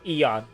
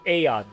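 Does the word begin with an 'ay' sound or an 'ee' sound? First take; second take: ee; ay. First: The word begins with an 'ee' vowel sound. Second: The word begins with an 'ay' vowel sound. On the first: The speaker calls it wrong. "not Eon" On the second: The speaker calls it right. "with the adding an A in the first letter"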